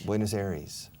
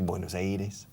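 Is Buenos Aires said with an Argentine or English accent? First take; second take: English; Argentine. First: It is said with an English accent. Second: It is said with an Argentine accent. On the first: The speaker calls it right. "ask me how to say Buenos Aires in English" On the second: The speaker calls it wrong. "you're saying it with an Argentine accent"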